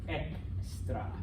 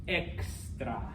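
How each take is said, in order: The two takes are said the same way.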